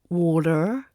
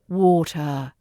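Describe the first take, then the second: First: It ends with an audible R sound. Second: It ends in a schwa without an R. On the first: The speaker calls it wrong. "Time to let that go" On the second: The speaker calls it right. "drop that R at the end. ... It's the schwa sound at the end"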